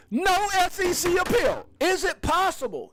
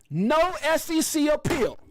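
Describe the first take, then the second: First: Crowd-pumping announcer; excited announcement. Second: Excited announcement. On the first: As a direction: shout the headline. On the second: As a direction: announce it like breaking news. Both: Real, not acted. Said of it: "I got a little quote for you".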